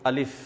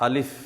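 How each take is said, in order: Both takes have the same delivery.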